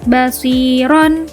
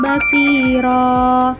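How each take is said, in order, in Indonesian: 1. Kata itu berakhir dengan bunyi n. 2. Kata itu berakhir dengan vokal yang dipanjangkan.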